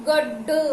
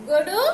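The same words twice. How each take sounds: First: గొడ్డు with a held double డ్డ; said with vattu. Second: గొడు with a single short డ; said without vattu. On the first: Teacher contrasting spellings for children, pressed double గొడ్డు. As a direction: pause on డ్డ and release into గొడ్డు. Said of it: "ఒత్తు ఇచ్చిన తర్వాత ఎలా పలుకుతున్నాము". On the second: Teacher contrasting spellings for children, single-consonant గొడు. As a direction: say గొడు in one flow, no held consonant. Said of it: "లేకుండా రాసినప్పుడు ఎలా పలుకుతున్నాము". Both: Shown as a demonstration.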